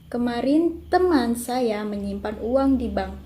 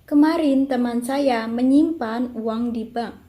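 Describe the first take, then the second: First: The stress falls on teman. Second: The stress falls on menyimpan. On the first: "kalimat kedua mendapatkan tekanan pada teman" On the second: "Yang keempat mendapat tekanan pada kali kata menyimpan"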